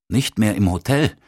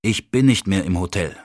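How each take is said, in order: First: Puzzled, rising echo; echoing question. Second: Distracted, even-pitched statement; absent-minded. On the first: Hans Olof echoes the news about the hotel, puzzled. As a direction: repeat it back as a surprised question. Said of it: "echote Hans Olof". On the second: Gunnar answers about the hotel, absent-minded. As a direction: answer as if your mind is elsewhere. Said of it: "erwiderte ich geistesabwesend". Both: A narrator's reading.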